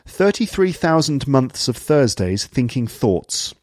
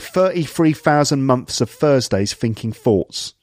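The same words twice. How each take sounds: First: The th sounds are pronounced fully as th. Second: The th sounds are pronounced as f. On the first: "th sounds are pronounced fully" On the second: "someone with a London accent who would say"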